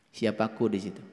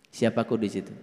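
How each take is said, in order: The two takes are said the same way.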